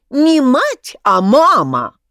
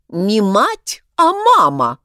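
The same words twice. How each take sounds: First: Echoing chorus. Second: Louder and higher, snapping the correction; angry correction. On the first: Voices echoing in Egorov's head. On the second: Crab correcting the drunk upstairs, angry. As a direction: insist hotly on мама, not мать. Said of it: "рассердился Краб Крабович". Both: A narrator's reading.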